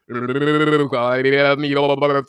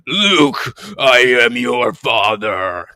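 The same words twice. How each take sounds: First: It is said warbling, as if through a fan. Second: It is said in a very deep voice.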